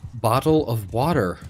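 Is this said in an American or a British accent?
American. It is said in a plain American accent. "We say it normal"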